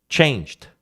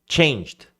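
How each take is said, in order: The two takes are said the same way.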